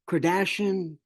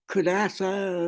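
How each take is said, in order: First: The name ends with a 'shun' sound. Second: The name ends with a 'sa' sound. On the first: The speaker calls it right. "the planet that we were going to" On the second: The speaker calls it wrong. "I'd say Kardasa"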